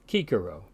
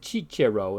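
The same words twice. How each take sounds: First: Both c sounds are said as hard k. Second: The c sounds are soft, in church-Latin style. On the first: "is called Cicero in classical Latin" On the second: "in ecclesiastical Latin"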